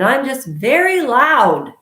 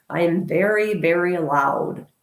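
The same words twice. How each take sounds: First: Louder, higher burst on very loud. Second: Said in the usual way. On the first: Shown as a demonstration. Vlogger shows viewers how loud she is, loud and high. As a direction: belt it out to prove the point.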